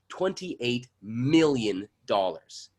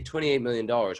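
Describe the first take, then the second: First: Every syllable is crisply and clearly enunciated. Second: The syllables are slurred together and mumbled. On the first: The speaker calls it right. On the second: The speaker calls it wrong.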